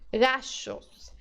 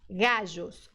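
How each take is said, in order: First: The double L sounds like an SH. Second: The double L sounds like a soft ZH. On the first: "é do S H do shopping" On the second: "É igual ao J do português"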